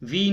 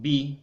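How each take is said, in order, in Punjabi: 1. ਇਹ ਸ਼ਬਦ V ਦੀ ਆਵਾਜ਼ ਨਾਲ ਸ਼ੁਰੂ ਹੁੰਦਾ ਹੈ। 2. ਇਹ ਸ਼ਬਦ B ਦੀ ਆਵਾਜ਼ ਨਾਲ ਸ਼ੁਰੂ ਹੁੰਦਾ ਹੈ। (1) "ਵਾਓ ਦੀ ਜਗ੍ਹਾ ਬੇ ਇਸਤੇਮਾਲ ਕਰਦੇ ਨੇ" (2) "ਵਾਓ ਦੀ ਜਗ੍ਹਾ ਬੇ ਇਸਤੇਮਾਲ ਕਰਦੇ ਨੇ"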